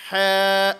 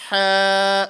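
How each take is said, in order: No difference in how they are said.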